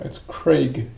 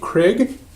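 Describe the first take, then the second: First: The vowel does not sound like 'Creg'. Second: The vowel sounds short, like 'Creg'. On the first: The speaker calls it right. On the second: The speaker calls it wrong. "Is it like C R E G"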